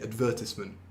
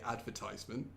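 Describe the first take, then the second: First: It is said with the traditional British pronunciation. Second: It is said with the American pronunciation. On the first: "older people tend to say advertisement" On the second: "So in America they say advertisement"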